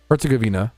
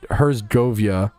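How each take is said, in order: First: No y sound comes before the final vowel. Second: An extra y sound comes before the final vowel. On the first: The speaker calls it right. "Govina, not like Gavinia" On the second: The speaker calls it wrong. "I always want to say Herzgovia, but that's not close at all. I was adding a Y for no reason"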